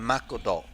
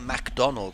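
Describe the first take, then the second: First: It is said with Japanese syllables and vowels. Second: It is said with English pronunciation. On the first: "we say Makodo" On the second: "we don't say McDonald's"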